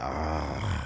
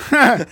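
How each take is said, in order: First: Low, soft groaning "ah"; imitated fat man's sleepy wheeze, deep and low; heavy asleep-sounding breath. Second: Loud, high yelped "ah"; higher-pitched breathing noise. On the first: Podcaster imitating wide-awake coworker, low sleepy breathing groan. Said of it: "would be wide awake and he sounded like that". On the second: Retold or imitated. Podcaster imagining slimmed-down coworker, high chihuahua-like yelp. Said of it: "Just be a higher pitch".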